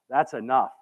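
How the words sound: It sounds content, satisfied and thankful. The speaker has had plenty and is thankful. "I'm full, I've had plenty, I'm so grateful and thankful"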